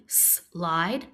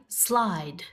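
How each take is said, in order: First: "slide" split into "sss", pause, "lide"; sounded out. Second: Said in the usual way. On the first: Shown as a demonstration. Teacher inviting pupils to help, slide split as s, lide. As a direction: hold the S of "slide" apart. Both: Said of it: "Help me say".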